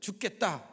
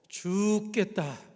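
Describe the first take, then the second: First: The word is said quickly, at normal speed. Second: The word is said slowly and drawn out. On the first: The speaker feels as if dying. The speaker calls it wrong. "이렇게 말하지 말고" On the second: It is in the Lord's hands. The speaker calls it right. "죽겠다라는 말을 좀 느리게 해보라는 것입니다"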